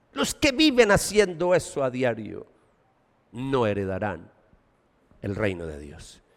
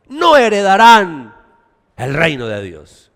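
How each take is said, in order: First: Much lower and softer, almost a whisper; hushed warning. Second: Slow, loud declaration; emphatic warning. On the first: Preacher echoing the warning, hushed and low. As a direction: let it sink in quietly. Same warning repeated softly. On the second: Preacher warning the church, loud and slow. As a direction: hammer it home. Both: Acted.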